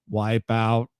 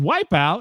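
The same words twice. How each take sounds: First: It is said in a flat robotic voice. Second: It is said in a normal natural voice. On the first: The voice assistant understands it. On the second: The voice assistant fails to understand it.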